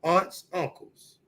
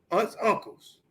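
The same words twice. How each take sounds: First: "aunts, uncles" drawn out slowly, each word weighted; slow emphasis. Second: Said in the usual way. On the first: Real, not acted. Telling the hosts who family means, slow and stressed. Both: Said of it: "when I say in the family".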